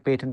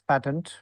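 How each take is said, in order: First: The word is said in a non-American way. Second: The word is said in an American way. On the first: "You can say patent also" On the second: "Americans pronounce patent"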